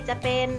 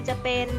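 The two takes are said the same way.

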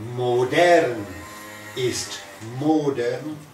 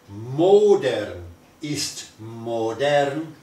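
First: The first word is stressed on its second syllable. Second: The first word is stressed on its first syllable. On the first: Being modern is to rot. "moderno es pudrir" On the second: To rot is modern. "pudrir es moderno"

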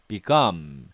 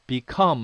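First: The k between vowels is voiced. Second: The k between vowels is voiceless. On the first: "무성음이 유성음화 되면서" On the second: "become 할 수도 있습니다"

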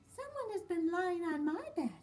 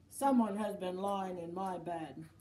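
First: It is said in a middle-sized voice. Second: It is said in a great big voice.

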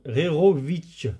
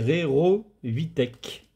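First: The name ends with a 'ch' sound. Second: The name ends with a 'k' sound. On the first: The speaker calls it right. "Non, Rerovitch. Vitch. Rerovitch, ça doit être ça" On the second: The speaker calls it wrong. "je prononce peut-être mal le mot, mais c'est Rerovitec"

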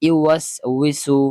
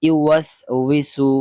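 Both takes have the same delivery.

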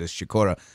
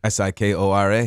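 First: The name is said with a Polish pronunciation. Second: The name is said with an American pronunciation.

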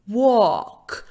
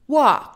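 First: A more rounded vowel close to o, British style. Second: An open vowel between a and o, American style. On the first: "В Британии данное бы слово произносили как walk. Буква А давала бы более округленный звук ближе к звуку О" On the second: "Это было американское произношение"

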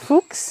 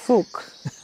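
First: The word ends with an s sound. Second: The word ends without an s sound. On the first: The speaker calls it right. "Do you pronounce the S?" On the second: The speaker calls it wrong. "Is it Fuchs or Fuch?"

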